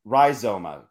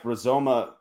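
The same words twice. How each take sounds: First: Rhizoma with a long "rye" first syllable; first vowel of rhizoma like "eye"; corrected pronunciation. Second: Rizoma with a short "ruh" first syllable; first vowel of Rizoma reduced to "uh"; unsure pronunciation. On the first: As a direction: say rhizoma as "rye-ZOH-muh". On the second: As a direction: say Rizoma as "ruh-ZOH-muh". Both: Real, not acted. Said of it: "How do you say that?".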